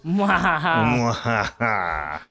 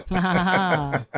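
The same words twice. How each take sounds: First: Slow drawn-out evil laugh; mad scientist cackle. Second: Slow gloating evil laugh; mad scientist cackle. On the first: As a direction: stretch the cackle out. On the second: Evil laugh after star-studded booth. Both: Pretend.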